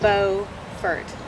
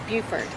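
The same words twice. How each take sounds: First: The name is pronounced the North Carolina way. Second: The name is pronounced the South Carolina way. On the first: It names the town in North Carolina. "North Carolina's version of the name, both the county and the town, is Beaufort" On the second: It names the town in South Carolina. "a town and county in South Carolina, spelled exactly the same but pronounced Beaufort"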